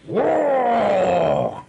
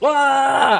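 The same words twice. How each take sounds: First: It is done in the game character's voice. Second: It is a plain shout in a normal voice.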